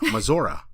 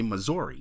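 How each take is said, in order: First: Missouri is pronounced the way locals say it. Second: Missouri is pronounced the way outsiders say it. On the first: "You call it Missouri" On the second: "when you're from Missouri, you don't say Missouri"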